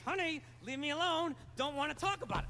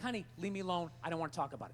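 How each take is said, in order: First: It is said tensely through clenched teeth. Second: It is said in a calm, normal voice.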